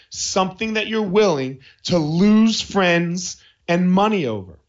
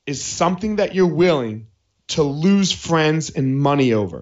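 First: Slow, deliberate repeat leaning on LOSE FRIENDS; emphatic restatement. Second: Said in the usual way. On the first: Real, not acted. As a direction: stretch out "lose friends and money over" for emphasis. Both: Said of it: "I'm gonna say it again".

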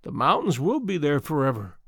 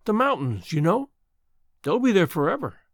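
First: A touch of wistful musing. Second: Lightly voiced young woman, insistent; girl insisting. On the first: Acted. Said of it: "repeated the woman, musingly". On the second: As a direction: reassure her the mountains remain. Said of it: "insisted the girl".

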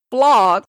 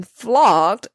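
First: Said in the usual way. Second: Flogged said slowly, every sound clear. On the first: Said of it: "as in flogged". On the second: Shown as a demonstration. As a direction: spell out flogged slowly in speech. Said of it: "F L O G G E D".

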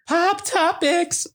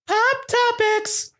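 First: High, slow segment jingle; announcer voice. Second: Even higher, slow jingle call; announcer voice. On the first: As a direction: sing out the segment title. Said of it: "segment title announced". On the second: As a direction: stretch it out like a show jingle. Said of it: "segment title announced again". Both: Shown as a demonstration.

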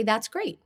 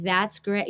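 First: Said in the usual way. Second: Dry, sarcastic that's great; mock-sarcastic that's great; snarky sarcasm. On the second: Shown as a demonstration. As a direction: say it like you don't mean it. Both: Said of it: "I could say it with a snarky sarcasm".

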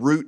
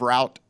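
First: ROUTE as ROOT. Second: ROUTE as ROWT; route like rout. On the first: Retold or imitated. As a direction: say route to rhyme with boot. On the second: Shown as a demonstration. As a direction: say route to rhyme with out. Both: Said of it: "you said route instead of route".

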